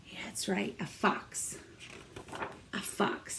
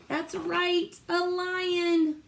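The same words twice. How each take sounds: First: Soft secret whisper. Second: Excited praise. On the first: Teacher quietly confirming the fox to the kids, whispered. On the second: Praising kids' answer. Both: Real, not acted.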